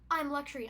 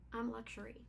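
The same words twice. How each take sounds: First: It is said in a showy, boastful way. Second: It is said in a quiet, understated way. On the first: It flaunts its luxury openly. "like a Lexus, where it says, I'm luxury, I'm strutting my stuff" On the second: It is luxurious without showing off. "this is"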